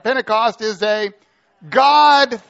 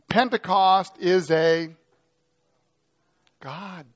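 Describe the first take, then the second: First: It is said with more energy and enthusiasm. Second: It is said in a calm, plain voice.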